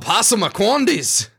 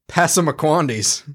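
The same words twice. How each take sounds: First: The word is said with a put-on accent. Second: The word is said in a plain voice.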